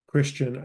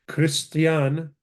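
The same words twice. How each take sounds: First: Said in the usual way. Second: "Christian" as kris-tee-AHN, three syllables; Greek-derived Syriac pronunciation. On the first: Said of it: "the word Christian". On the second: Shown as a demonstration. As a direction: say "Christian" with a clear t and open final "ahn". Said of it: "Greek transliteration of the word Christian".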